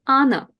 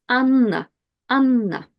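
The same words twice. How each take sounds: First: "Anna" with a short, single n. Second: "Anna" with the n held long; long double N. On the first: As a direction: say "Anna" with a quick n, no hold. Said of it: "So if I had just one N". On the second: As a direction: hold the n in "Anna" noticeably longer. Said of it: "But with two N's". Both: Shown as a demonstration.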